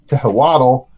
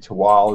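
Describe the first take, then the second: First: The name is read out fully as spelled. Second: The name is said in a shortened form. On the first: This is how most people would read it. The speaker calls it wrong. "naturally most people probably" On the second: This is how the makers say it. The speaker calls it right. "It's really Tual is the way we pronounce it"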